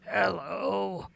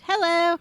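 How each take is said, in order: First: It is said in a scary voice. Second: It is said in a normal voice.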